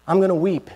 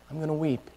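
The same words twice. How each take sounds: First: Mild mournful Mary. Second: Fading to a near hush. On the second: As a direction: repeat it much softer, dying away. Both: Acted. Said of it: "And she knows".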